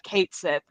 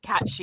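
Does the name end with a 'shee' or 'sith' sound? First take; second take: sith; shee. First: The name ends with a 'sith' sound. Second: The name ends with a 'shee' sound. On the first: The speaker calls it wrong. "said Cait Sith instead of Cat She" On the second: The speaker calls it right. "apparently that's how it's supposed to be said"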